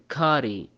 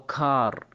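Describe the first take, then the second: First: The vowel is an open a with a final ee. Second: The vowel is an open a with no ending. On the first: "ما نقول كاري او كار، خطأ" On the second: "ما نقول كاري او كار، خطأ"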